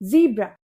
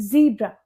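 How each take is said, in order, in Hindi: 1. पहला स्वर 'ee' जैसा सुनाई देता है। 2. पहला स्वर 'ee' जैसा सुनाई देता है।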